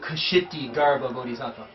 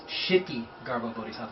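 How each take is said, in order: First: The first word begins with a K sound. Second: The first word begins with a sh sound. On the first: This is how it is said in America. "in America, we pronounce the K" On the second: This is how it is really said. "But really, it's"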